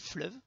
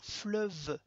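First: The final e is silent. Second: The final e is pronounced. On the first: The speaker calls it wrong. "on va pas dire fleuve" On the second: The speaker calls it right. "il va se prononcer. ... on va dire fleuve"

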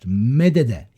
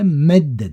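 First: The two d sounds are separated by a vowel. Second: The two d sounds merge into one doubled d. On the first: This is the underlying form of the verb. "Medede yerine" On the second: This is how the verb is actually said. "medde demişler"

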